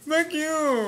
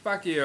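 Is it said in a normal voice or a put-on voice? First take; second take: put-on; normal. First: It is said in a put-on deaf voice. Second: It is said in his normal voice.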